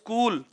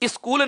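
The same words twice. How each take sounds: First: The word starts directly with the consonant cluster. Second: An extra vowel is added before the first consonant. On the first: The speaker calls it right. "से को आधा बोलिए" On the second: The speaker calls it wrong. "स्कूल नहीं होता दोस्तों"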